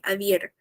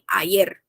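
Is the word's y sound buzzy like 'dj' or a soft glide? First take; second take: buzzy; glide. First: The y sound starts with a buzzy d-like onset. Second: The y sound is a soft glide without onset. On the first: "como se fosse um Dzinho mudo ali" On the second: "Mas também tem ayer"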